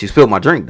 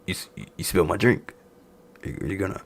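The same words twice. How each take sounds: First: Said in the usual way. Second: Soft, halting imitation of a grumble; mock muted complaint. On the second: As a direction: drop the voice and stammer the complaint. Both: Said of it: "he just talking like this".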